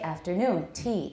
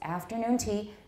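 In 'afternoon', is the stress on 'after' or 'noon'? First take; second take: noon; after. First: The stress in 'afternoon' falls on 'noon'. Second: The stress in 'afternoon' falls on 'after'. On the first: The speaker calls it wrong. "We don't say afternoon tea. That's very awkward" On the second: The speaker calls it right. "It's afternoon tea"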